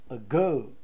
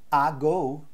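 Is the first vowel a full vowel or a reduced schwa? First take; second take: schwa; full. First: The first vowel is a short, neutral schwa. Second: The first vowel is a full, open vowel. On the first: The speaker calls it right. "a gente fala ago" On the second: The speaker calls it wrong. "a gente não fala ago"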